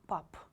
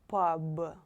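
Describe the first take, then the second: First: The final consonant is a voiceless p sound. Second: The final consonant is a voiced b sound. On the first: The speaker calls it right. "It will be pap" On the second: The speaker calls it wrong. "Don't pronounce it like pub"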